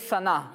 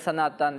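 First: The word ends without a t sound. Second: The word ends with a t and vowel ending. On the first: The word is read at a stop. "جب ہم وقف کر کے یعنی سائلنٹ کر کے پڑھیں گے" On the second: The word carries its case ending. "جب اس پر تنوین لگاتے ہیں تو اس وقت پھر اس پر ہم اعراب پڑھتے ہیں"

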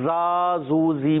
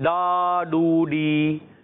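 First: The syllables start with a z sound. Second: The syllables start with a retroflex d sound. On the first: "زا زو زی بھی نہیں بننا" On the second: "ڈال بھی نہیں بننا"

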